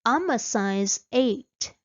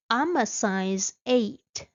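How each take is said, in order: Both takes have the same delivery.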